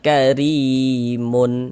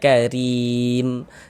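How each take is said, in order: First: The word ends with an added -un sound. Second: The word ends on a bare, silent m. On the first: The reading runs on into the next word. The speaker calls it wrong. "Jangan dibaca karimun" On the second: The reader stops at the end of the word. The speaker calls it right. "kalau kita berwakaf di huruf mim, kita baca karim"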